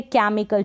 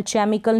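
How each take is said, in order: First: केमिकल with a hard k sound at the start; correct ch as k. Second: चेमिकल said with a ch sound, as chemikal; wrong ch sound. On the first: Teacher models the right way to say केमिकल. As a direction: say केमिकल clearly as kemikal. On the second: Teacher shows students the wrong way to say चेमिकल. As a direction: demonstrate the mistaken चेमिकल with ch. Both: Shown as a demonstration. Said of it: "चेमिकल नहीं पढ़ेंगे".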